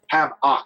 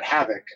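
First: The name is split into two separate words. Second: The name is said as one smooth word. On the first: The speaker calls it wrong. "like two words, like Doc Ock" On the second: The speaker calls it right. "not Havoc"

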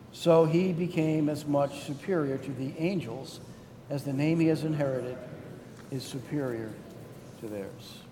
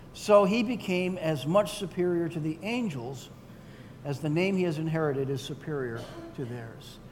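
The two takes are said the same way.

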